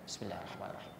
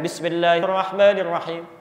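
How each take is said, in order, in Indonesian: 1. Frasa itu diucapkan pelan, hampir seperti berbisik. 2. Frasa itu diucapkan keras dengan suara penuh. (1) "bismillahnya disirkan"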